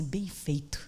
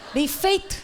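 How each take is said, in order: First: Quiet, dry "Bem feito" with a chuckle; a mother's low, knowing "Bem feito"; mother's mock scolding. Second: "Bem feito" repeated higher through laughter; laughing echo. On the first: Mother teases her scared daughter with a quiet, dry "Bem feito". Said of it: "Ela olhou e falou assim". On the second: Shown as a demonstration. Preacher repeats mother's "Bem feito" to congregation, laughing high. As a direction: relish the mother's line, laughing. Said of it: "Aquele jeito de mãe".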